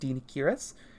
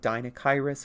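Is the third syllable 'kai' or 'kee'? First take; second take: kee; kai. First: The third syllable sounds like 'kee'. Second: The third syllable sounds like 'kai'. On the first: The speaker calls it right. "It is pronounced Dinikiris" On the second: The speaker calls it wrong. "a lot of people will say like Dinakairis"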